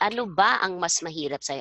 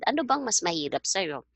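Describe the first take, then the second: First: The words ba and ang are said separately. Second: The words ba and ang merge into bang. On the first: "didn't say" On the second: "I said"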